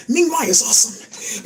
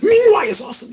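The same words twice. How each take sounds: First: Said in the usual way. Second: Much higher and louder, bursting with glee; excited. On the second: Shown as a demonstration. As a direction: shout it out with a big leap up.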